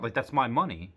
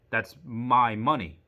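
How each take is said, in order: First: Said in the usual way. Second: "my" stressed and drawn out, slow and louder with a falling end; slow emphatic my. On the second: Retold or imitated. Insisting to the bank clerk that it is his money, slow and emphatic. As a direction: lean hard on "my", spell it out slowly. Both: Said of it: "I didn't say that".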